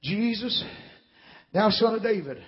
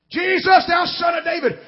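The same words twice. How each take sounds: First: Hushed mock cry to Jesus; subdued retold cry. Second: High, urgent call of a blind beggar; raised-pitch imitation of a desperate call; retold loud cry. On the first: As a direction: quote the cry quietly, holding back the volume. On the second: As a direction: cry out to be heard over a crowd. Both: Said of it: "he's crying loud as he can".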